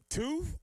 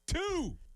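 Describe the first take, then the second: First: It sounds unsure, like a question. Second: It sounds confident and firm.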